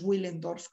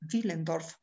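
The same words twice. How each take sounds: First: It begins with a W sound. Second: It begins with a V sound. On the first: The speaker calls it wrong. "no le llaméis Willendorf ni nada de eso" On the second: The speaker calls it right. "esto es Willendorf"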